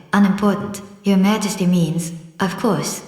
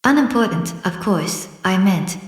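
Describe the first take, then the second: First: Respectful. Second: Hasty. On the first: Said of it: "in a very respectful tone". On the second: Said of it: "the king hastily said". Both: A narrator's reading.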